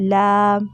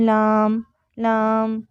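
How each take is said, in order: First: لام with no nasal sound at all; clear laam. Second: لام with the sound pushed through the nose; nasal laam. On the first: Teacher giving the correct لام after the wrong one. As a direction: say لام cleanly, nothing through the nose. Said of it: "اس میں ناک میں آواز نہیں جا رہی". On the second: Teacher demonstrating the nasal لام mistake. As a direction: say لام nasally as the wrong example. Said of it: "تو یہ ناک میں آواز جا رہی ہے". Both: Shown as a demonstration.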